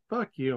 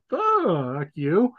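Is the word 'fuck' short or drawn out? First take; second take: short; drawn out. First: The word fuck is said short and plain. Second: The word fuck is stretched out long.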